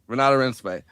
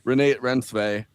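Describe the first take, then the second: First: The first name is said with three syllables. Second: The first name is said with two syllables. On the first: The speaker calls it right. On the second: The speaker calls it wrong.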